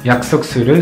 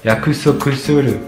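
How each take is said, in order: First: Some sounds are nearly dropped. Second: Every syllable is fully pronounced. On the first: It sounds like fluent natural speech. The speaker calls it right. "c'est beaucoup mieux" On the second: It sounds like reading from a text. The speaker calls it wrong. "tu prononcerais yakusokuru, mais ça va pas du tout"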